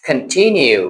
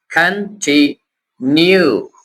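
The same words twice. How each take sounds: First: Said in the usual way. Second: continue very slow, three separate pieces: kan, ti, nyu; broken into syllables. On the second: Shown as a demonstration. Teacher shows learners how to split big words, syllable by syllable. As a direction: pause between each syllable of continue. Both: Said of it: "syllable बना लिया करे".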